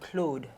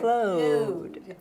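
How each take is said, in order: First: The name is said with a French pronunciation. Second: The name is said with a long English O. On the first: "in French, you would say Claude" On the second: "Just elongate the O"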